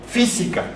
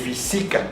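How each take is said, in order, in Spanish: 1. El acento está en la primera sílaba. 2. El acento no está en la primera sílaba. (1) "Decimos física. El sonido fonético está en la antepenúltima sílaba" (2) "No podemos decir física"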